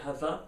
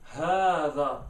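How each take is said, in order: First: The first vowel after h is short. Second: The first vowel after h is long. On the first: The speaker calls it wrong. "You can't say هذا, that's wrong" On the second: The speaker calls it right. "you elongate the ha for at least one second. So it's هذا"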